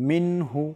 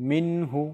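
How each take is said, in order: Both takes have the same delivery.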